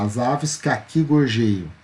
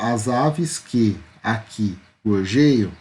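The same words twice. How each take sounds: First: The vowels between words are joined together. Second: The vowels between words are kept separate. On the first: The speaker calls it right. "então eu junto na hora de eu falar" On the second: The speaker calls it wrong. "eu não falo as aves que aqui gorjeiam, não"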